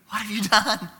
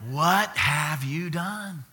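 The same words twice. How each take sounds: First: High, quicker reproach; mock-horrified questioning of a toddler; grandparent's startled question. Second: Slow, drawn-out reproach, pitched higher; a grandparent's slow, aghast question; stern grandparent. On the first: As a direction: ask it in a high, aghast voice. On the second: Retold or imitated. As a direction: stretch each word in mock disbelief. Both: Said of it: "What do you think I said to him?".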